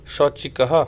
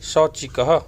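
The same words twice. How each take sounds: First: शौचिकः repeated with a rising end; repeated model word. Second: शौचिकः said clearly and evenly; first careful take of शौचिकः; model pronunciation. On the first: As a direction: say शौचिकः again, lifting the end. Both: Shown as a demonstration. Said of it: "इसे हमने पाठ में पढ़ा था".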